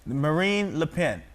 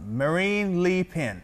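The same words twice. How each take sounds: First: "Marine Le Pen" slowly, with "Le" as luh; corrected Le. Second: Slow "Marine Le Pen" with "Le" as LEE; misread Le. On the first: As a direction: say "Le" with a short neutral vowel, luh. Repeats the coach's correction. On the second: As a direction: sound out "Le" slowly as LEE. Coach corrects Le. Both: Shown as a demonstration.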